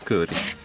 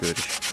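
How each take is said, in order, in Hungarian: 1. Az első magánhangzó hosszú. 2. Az első magánhangzó rövid. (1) "Hosszú ő R.I.S" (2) "nem kőr is"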